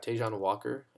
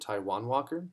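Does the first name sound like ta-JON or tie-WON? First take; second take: ta-JON; tie-WON. First: The first name sounds like ta-JON. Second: The first name sounds like tie-WON. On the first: The speaker calls it wrong. "I've been saying it wrong for 7 years" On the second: The speaker calls it right. "It's actually Taijuan Walker"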